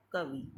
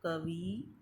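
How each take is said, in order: First: Said in the usual way. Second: "कवि" ending in held -vee; wrong-form demo, long ee closing "कवि"; mispronounced long i. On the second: Shown as a demonstration. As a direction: stretch the last vowel of "कवि". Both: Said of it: "छोटी ई के स्थान पर बड़ी ई".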